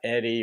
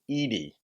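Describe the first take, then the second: First: The first vowel is a short 'eh' sound. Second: The first vowel is a long 'ee' sound. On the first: The speaker calls it wrong. "not Eddie" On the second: The speaker calls it right. "it's pronounced Jason Eady"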